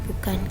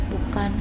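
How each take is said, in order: No difference in how they are said.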